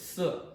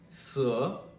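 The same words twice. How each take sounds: First: The pitch falls sharply downward. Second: The pitch dips low and then rises. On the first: "So this would mean a down tone" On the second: "swooping tone"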